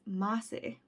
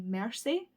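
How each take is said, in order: First: It is said with the r dropped, Boston-style. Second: It is said with the r clearly pronounced.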